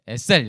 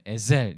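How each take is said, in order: First: The word is said with a plain sound. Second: The word is said with a voiced sound. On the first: "그냥 우리나라 유성음 없잖아요. 그러니까 그냥 에, 에셀 이렇게 하겠습니다" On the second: "약간 유성음이긴 해요. 에셀 이렇게 하면 더 좋은데"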